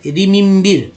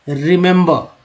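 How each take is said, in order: First: रिमिम्बिर said higher and louder, every e read as short i; deliberately wrong रिमिम्बिर; wrong spelling-out reading. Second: Careful teacher's रिमेंबर; correct pronunciation. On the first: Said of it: "गलत हो जाता ना". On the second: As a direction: model रिमेंबर the right way for learners. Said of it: "इस तरह से लिखते हैं रिमेंबर". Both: Shown as a demonstration.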